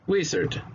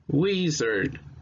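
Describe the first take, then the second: First: The word is said at normal speed. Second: The word is said slowly and carefully. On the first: "Now a normal speed" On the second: "it will sound like this"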